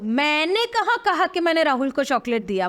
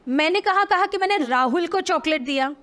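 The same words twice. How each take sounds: First: The stress is on मैंने. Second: The stress is on Rahul.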